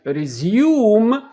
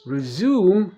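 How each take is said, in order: First: Resume said the British way, loud; British resume, higher, drawn-out second syllable; British pronunciation. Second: Resume said the American way; American resume, with a plain ZOOM; American pronunciation. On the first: Teacher showing learners how Britons say resume, exaggerated British accent. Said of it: "دي بريتش". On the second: Teacher showing learners how Americans say resume, American accent. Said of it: "دي أمريكان". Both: Shown as a demonstration.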